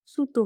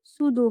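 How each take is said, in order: First: সুতু with an unvoiced t; correct T form. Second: সুদু with a voiced d; wrong D form. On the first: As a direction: keep the t hard in সুতু. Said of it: "হবে". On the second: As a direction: soften the middle of সুদু to d. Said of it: "হবে না". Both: Shown as a demonstration.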